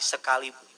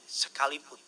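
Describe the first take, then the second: First: The word sekalipun said a bit louder. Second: Said in the usual way. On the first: Shown as a demonstration. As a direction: repeat sekalipun with more force. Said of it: "Lebih besar lagi". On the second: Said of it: "sama-sama bilang sama saya".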